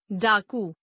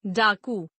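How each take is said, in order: First: डाकू ending on short u, "daaku"; mispronounced. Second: Said in the usual way. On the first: Shown as a demonstration. Teacher showing a u error, mispronounced with short final u. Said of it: "अनशुद्ध". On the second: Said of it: "शुद्ध".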